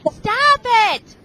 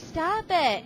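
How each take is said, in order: First: It is shouted loudly. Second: It is said with a slightly raised voice.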